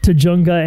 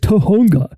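First: The middle consonant is a J sound. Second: The middle consonant is an H sound. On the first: The speaker calls it wrong. "has said Tujunga" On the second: The speaker calls it right. "very hastily corrected someone by saying it's Tohunga"

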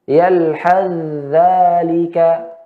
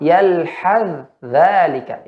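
First: The th sound merges into the following dh. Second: The th sound is pronounced clearly and separately. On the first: "membacanya dengan idgham" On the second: "boleh dibaca dengan ya izhar"

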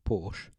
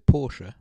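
First: The name is pronounced the way English speakers do. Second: The name is pronounced the way its home language does. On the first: The speaker calls it wrong. "instead of Porsche" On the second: The speaker calls it right. "I'd say Porsche"

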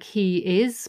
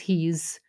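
First: The two words are said separately in full. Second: The two words are merged into one contraction. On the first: The speaker calls it wrong. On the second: The speaker calls it right.

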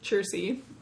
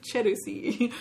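First: The name is said plainly with two syllables. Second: The name is said with Japanese-like extra syllables. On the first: The speaker calls it right. "but it's Chersey" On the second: The speaker calls it wrong. "in a Japanese like manner of pronouncing Chelsea"

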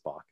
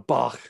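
First: The name is said plainly, without German sounds. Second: The name has a harsh German ending sound. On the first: The speaker calls it right. "That's not the hard German for most people. It's just Bach" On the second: The speaker calls it wrong. "my mind very much goes to the German pronunciation of that"

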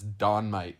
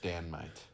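First: The first vowel sounds like the one in 'cot'. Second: The first vowel sounds like the one in 'cat'. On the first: The speaker calls it wrong. "some people might mispronounce it as Don Might Slappy" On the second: The speaker calls it right. "The correct pronunciation is Dan Might"

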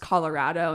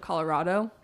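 First: The stressed vowel sounds like the vowel in 'rad'. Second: The stressed vowel sounds like the vowel in 'rah'. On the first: The speaker calls it right. "it's pronounced Colorado" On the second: The speaker calls it wrong. "instead of Colorado"

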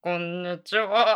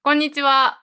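First: It is said very deep, from the belly. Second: It is said at a higher pitch.

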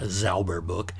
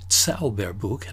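First: The word begins with a soft z sound. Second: The word begins with a sharp ts sound. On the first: It sounds like asking for a book on cleanliness. The speaker calls it wrong. "not Zauberbuch" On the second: It asks for a book of magic. The speaker calls it right. "the Z is pronounced differently"

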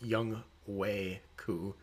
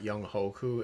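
First: The ending is split into two parts, 'ho koo'. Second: The ending runs together as one word, 'hoku'. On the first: The speaker calls it right. "it's Young Wei Ku" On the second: The speaker calls it wrong. "it's not Young Hoku"

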